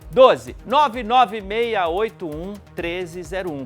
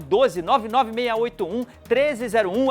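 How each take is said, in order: First: The number is read slowly and carefully. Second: The number is read at a quicker pace.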